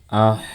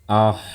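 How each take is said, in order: First: The syllable sounds thick and heavy. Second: The same.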